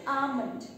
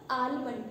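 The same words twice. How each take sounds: First: "Almond" as "ah-mond", no L; silent L in almond. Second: "almond" with an audible L; wrong "almond", L pronounced; mispronounced almond. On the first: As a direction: leave the L out of "Almond". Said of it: "What we pronounce?". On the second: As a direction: sound the L before M in "almond". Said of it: "We want to be pronouncing is a". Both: Shown as a demonstration.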